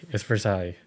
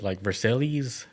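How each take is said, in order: First: "Versailles" said ver-SIGH, French style; French pronunciation. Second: "Versailles" read as ver-SAY-lees, spelled out; anglicized pronunciation. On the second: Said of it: "how you pronounced it". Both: Shown as a demonstration.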